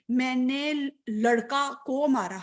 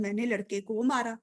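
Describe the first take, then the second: First: Slow, deliberate میں نے لڑکا کو مارا with لڑکا unchanged; wrong form demo. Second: Natural میں نے لڑکے کو مارا with لڑکے; correct form demo. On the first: Teacher showing students the form nobody says, slowly. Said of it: "میں کبھی ایسے تو نہیں نا بولتی". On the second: Teacher giving students the correct everyday form, calmly. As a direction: say لڑکے the normal way, a bit softer. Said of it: "ہم تو ایسے بولتے ہیں". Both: Shown as a demonstration.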